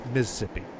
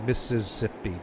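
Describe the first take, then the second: First: The state name is said the local native way. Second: The state name is said the common outsider way. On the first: The speaker calls it right. "the proper way to pronounce that state is" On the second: The speaker calls it wrong. "I don't know what you're saying when you say Mississippi"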